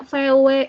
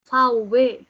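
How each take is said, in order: First: The letters are said with Indonesian letter names. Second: The letters are said with German letter names. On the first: This is the Indonesian way of saying it. "Kalau bahasa Indonesia V W" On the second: This is the German way of saying it. "Nyebut mobil V W nggak V W lagi ya"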